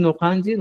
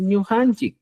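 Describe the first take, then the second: First: "nojanchis" with plain N and final S; old form NOJANCHIS. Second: "ñujanchik" with NY and final K; new form ÑUJANCHIK. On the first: Teacher cites the form to replace, "nojanchis" ending in S. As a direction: say "nojanchis" as no-kan-chis. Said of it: "En vez de decir nojanchis". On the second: Teacher gives learners the replacement, "ñujanchik" ending in K. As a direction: say "ñujanchik" as nyo-han-chik. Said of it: "vas a decir ñujanchik". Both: Shown as a demonstration.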